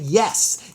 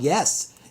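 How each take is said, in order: First: It is said with strong, enthusiastic feeling. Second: It is said plainly, without much feeling.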